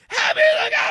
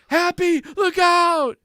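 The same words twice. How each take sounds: First: It sounds like genuine, messy real-life panic. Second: It sounds like a theatrical movie line.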